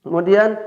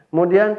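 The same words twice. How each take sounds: No difference in how they are said.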